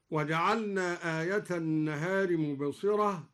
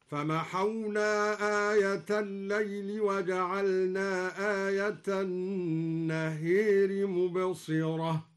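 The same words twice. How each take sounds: First: Said in the usual way. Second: Slow chant, النهار with the long a leaned to e; imala on النهار. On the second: Shown as a demonstration. Teacher chants al-Duri's reading, النهار toward e. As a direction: recite النهار as annehir. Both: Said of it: "أمالها أيضا هكذا".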